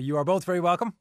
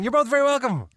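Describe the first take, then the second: First: It is said plainly, with little feeling. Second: It is said with more feeling and energy.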